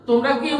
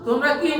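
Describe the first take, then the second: The two takes are said the same way.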